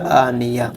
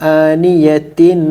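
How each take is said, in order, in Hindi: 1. अंत मौन h की आवाज़ के साथ कहा जाता है। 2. अंत t की आवाज़ और स्वर के साथ कहा जाता है। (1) "अगर हमारी आवाज़ यहाँ रुक जाए तो इसको पढ़ा जाएगा" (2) "अगर रुके ना बल्कि आगे तक पढ़ते रहें"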